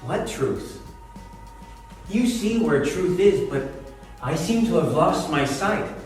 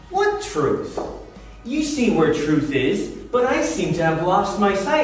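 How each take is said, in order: First: It is said in a sad, sorrowful tone. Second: It is said in a sarcastic, mocking tone. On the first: She is grieving. "maybe she's sad" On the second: She is mocking him. "Or maybe she's just being sarcastic, you know, trying to mock him"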